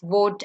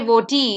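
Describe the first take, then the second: First: The word ends cleanly on the T sound. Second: An extra vowel sound follows the final T. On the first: The speaker calls it right. "the E becomes silent. So it's" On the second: The speaker calls it wrong. "you don't say voti"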